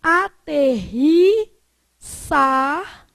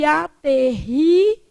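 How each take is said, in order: First: "aterrissar" slow, with hissed S before AR; first variant. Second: "aterrizar" slow, with buzzed Z before AR; second variant. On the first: Teacher listing accepted forms, "aterrissar" slowly with an S. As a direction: split "aterrissar" slowly, S in SAR. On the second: Teacher listing accepted forms, "aterrizar" slowly with a Z. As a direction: split "aterrizar" slowly, Z in ZAR. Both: Shown as a demonstration. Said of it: "Você pode falar".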